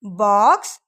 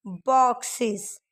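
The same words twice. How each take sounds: First: Said in the usual way. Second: बॉक्सेस slowly with a clear iz end. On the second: Shown as a demonstration. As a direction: stretch बॉक्सेस, mark the iz. (बॉक्सेस धीरे, इज़ साफ़) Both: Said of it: "इसका sound आ रहा है".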